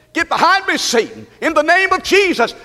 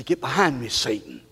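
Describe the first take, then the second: First: High, ringing command; forceful rebuke. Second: Very low, soft command; quiet rebuke. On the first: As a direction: cast him out with preacher's authority. Third, forceful take of rebuke. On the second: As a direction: say it under your voice, firmly. Models rebuke, building in three takes. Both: Shown as a demonstration.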